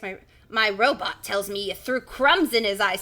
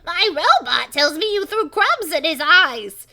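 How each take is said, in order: First: Louder uncle character voice near usual pitch; lightly voiced old uncle; Uncle Jack. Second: High, very loud, slow professor voice; throat-punishing cartoon shout, drawn out; harsh character voice. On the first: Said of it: "that's Uncle Jack". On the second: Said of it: "such hell in my voice".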